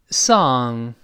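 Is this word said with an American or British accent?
American. It is said with relaxed, unrounded lips. "跟老师大声读一遍美式发音这歌曲song"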